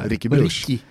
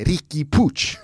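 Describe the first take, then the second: First: The name ends with a soft sh sound. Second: The name ends with a strong tch sound. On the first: This is the older, commonly used pronunciation. The speaker calls it wrong. "Inte alls liksom någonting som minner om Ricky Puch" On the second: This is the corrected pronunciation the commentators stressed. The speaker calls it right. "det kändes som att de hade skruvat upp T-ljudet i Puch"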